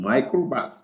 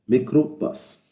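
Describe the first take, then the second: First: The first syllable sounds like 'my'. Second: The first syllable sounds like 'mee'. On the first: The speaker calls it wrong. "بس احنا مش بنقول مايكروباص" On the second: The speaker calls it right. "بنقول ميكروباص"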